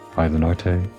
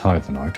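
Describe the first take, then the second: First: The name ends with an extra vowel sound. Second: The name ends without an extra vowel sound. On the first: The speaker calls it wrong. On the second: The speaker calls it right.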